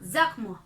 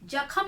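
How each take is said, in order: First: It starts with a z sound. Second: It starts with a j sound. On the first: The speaker calls it right. "क्या बोलेंगे?" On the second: The speaker calls it wrong. "जख्म नहीं बोलेंगे"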